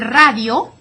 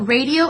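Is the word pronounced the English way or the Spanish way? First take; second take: Spanish; English. First: The word is pronounced with Spanish sounds. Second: The word is pronounced with English sounds. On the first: "el radio" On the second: "exactly the same spelling, just a little different pronunciation"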